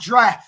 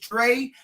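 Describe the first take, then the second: First: The first syllable has an open 'ah' vowel. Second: The first syllable has an 'eh' or 'ay' vowel. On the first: The speaker calls it wrong. "not Dra" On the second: The speaker calls it right. "I know how to pronounce it now. It's Dre"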